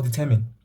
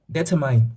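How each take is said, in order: First: DETERMINE said dih-TER-min, short last syllable; standard pronunciation. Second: DETERMINE said DEH-tuh-mine, ending like "mine"; alternative pronunciation. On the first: Teacher giving students the other variant of an exam word, determine as dih-TER-min. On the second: Teacher giving students one variant of an exam word, determine as DEH-tuh-mine. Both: Shown as a demonstration. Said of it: "depends on how you pronounce that".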